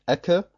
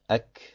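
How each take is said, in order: First: The final consonant ends with a bouncing echo vowel. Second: The final consonant ends with free flowing breath. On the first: The speaker calls it wrong. "Man sagt nicht Ecke" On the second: The speaker calls it right. "dass man die Eigenschaft der Hams erzeugt und sagt Ek"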